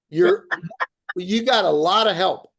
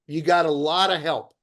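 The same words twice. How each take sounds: First: Laughing through the reassurance. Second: Said in the usual way. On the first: Real, not acted. Host reassuring agents on the call, laughing. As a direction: chuckle the words out, amused.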